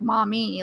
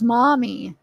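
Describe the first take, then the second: First: The stress is on the last syllable. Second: The stress is on the first syllable. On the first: The speaker calls it wrong. "how I always said it is like mommy, like the last syllable" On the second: The speaker calls it right. "So it's mommy"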